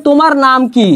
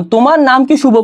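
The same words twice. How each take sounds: First: "তোমার নাম কি" ending on "কি" as the asked word; open question. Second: "তোমার নাম কি শুভ" with unstressed "কি", asking for a nod; yes-no question. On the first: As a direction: ask for a spoken answer with final "কি". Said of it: "যে উত্তরটা তোমার মুখে বলে দিতে হবে". (শেষের "কি"-তে উত্তর চাওয়া প্রশ্ন) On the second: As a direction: ask "শুভ" as the point to confirm. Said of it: "এই উত্তরটা দিতে আমার মুখ দিয়ে কিছু বলা লাগবে না". ("শুভ"-তে জোর দিয়ে হ্যাঁ-না প্রশ্ন) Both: Shown as a demonstration.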